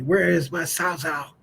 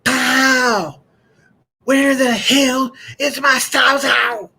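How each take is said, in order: First: Slow, restrained echo of country dad; dad's country accent. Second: High, loud country-dad bellow; mad dad yelling. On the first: Retold or imitated. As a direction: replay dad's West Virginia drawl without yelling. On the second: Acted. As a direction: holler it slowly like a furious West Virginia father. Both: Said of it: "he was so mad, and he said".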